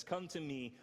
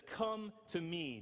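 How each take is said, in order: First: Said in the usual way. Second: "Come to me" drawn out slowly and gently; slow invitation. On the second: Shown as a demonstration. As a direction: stretch "Come to me" as a gentle call. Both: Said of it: "Jesus says this".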